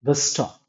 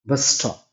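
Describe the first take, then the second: No difference in how they are said.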